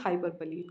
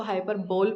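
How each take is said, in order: First: Hyperbole said "hy-PER-buh-lee"; correct pronunciation of hyperbole. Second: हाइपरबोल said as "hyper-bowl"; mispronounced hyperbole. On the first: Teacher correcting students' common mistake, hyperbole pronounced "hy-per-buh-lee". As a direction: end hyperbole in "-lee", never "bowl". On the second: Teacher showing students how some misread it, mispronounced हाइपरबोल as "hyper-bowl". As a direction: say हाइपरबोल ending in "bowl", the common mistake. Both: Shown as a demonstration. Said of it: "जो कि गलत है".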